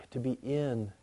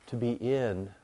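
The two takes are said the same way.

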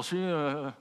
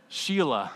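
First: Softer, swallowed mumble of Sheila; mumbled. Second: Said in the usual way. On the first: Shown as a demonstration. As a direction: mumble "Sheila" under your breath so it blurs. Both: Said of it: "Or you can just mumble".

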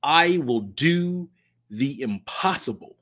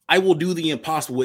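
First: Slow, deliberate declaration; solemn slow opener; slow pledge phrase. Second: Said in the usual way. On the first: Shown as a demonstration. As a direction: set the words down one by one like a pledge. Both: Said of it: "starts with the phrase".

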